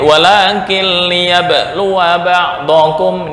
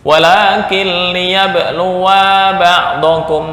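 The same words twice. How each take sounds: First: The final vowel of liyabluwa is short. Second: The final vowel of liyabluwa is long. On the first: One subject does the testing. The speaker calls it right. "ini pendek" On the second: A second subject also does the testing. The speaker calls it wrong. "Ketika dibaca panjang"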